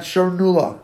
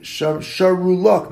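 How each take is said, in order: First: "Sharnu Lach" blended into one word; "Sharnu Lach" as the faulty merged form; wrong, run together. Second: "Sharu Lach" said as two distinct words; careful "Sharu... Lach"; correct separation. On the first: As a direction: slur the join in "Sharnu Lach". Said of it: "not Sharnu Lach". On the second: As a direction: set "Lach" apart after "Sharu". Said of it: "It should be Shar, Sharu Lach". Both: Shown as a demonstration.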